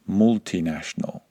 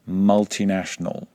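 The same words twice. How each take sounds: First: The first vowel is not the short U sound. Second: The first vowel is a short U sound. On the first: This is a regional pronunciation. "not multinational" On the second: This is the standard British pronunciation. "exactly the same with multinational"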